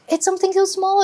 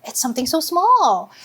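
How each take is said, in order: First: "so" lifted high for emphasis; stress on so. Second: Said in the usual way. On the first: Shown as a demonstration. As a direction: push the word "so" up high.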